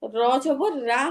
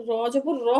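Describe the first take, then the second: First: Final রা as an open "raa"; unrounded, light রা with an a vowel; slow র জবর রা, open "aa" at the end; thin open R. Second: Final র as a thick "raw"; র জবর র with a full o-coloured vowel; heavy rounded R. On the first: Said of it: "র জবর রা হবে না". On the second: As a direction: round the lips on the last র. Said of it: "র জবর র হবে". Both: Shown as a demonstration.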